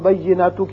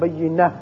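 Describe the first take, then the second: First: The word ends with a t sound and vowel. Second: The word ends with a soft h sound. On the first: The word is read without stopping. "بینہ تو کی بجائے" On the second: The reader stops at the end of the verse. "وقت کی صورت میں تا ہتائیہ ہا بن جائے گی"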